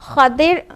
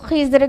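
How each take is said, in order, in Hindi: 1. इस नाम में d ध्वनि है, Khadir। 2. इस नाम में z ध्वनि है, Khizr। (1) "जो ज़्यादा सही है वो खदिर है" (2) "खिज़र कहते हैं और कई प्रोनाउंसिएशन हैं"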